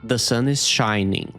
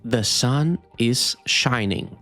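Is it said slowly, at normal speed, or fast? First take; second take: normal speed; slowly. First: It is said at normal speed. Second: It is said slowly.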